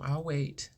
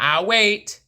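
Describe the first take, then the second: First: It is said in a calm, normal voice. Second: It is said in a raised, higher voice. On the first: "my voice is just like it is" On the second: "raise my voice to maybe this octave"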